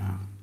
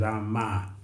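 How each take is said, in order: First: The word ends on the m, no final vowel. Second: The word ends with a vowel after the m. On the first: It names the intended deity. The speaker calls it right. "The pronunciation is Ram" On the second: It names the goddess rather than the intended deity. The speaker calls it wrong. "If you pronounce the A, there will be something on top of it"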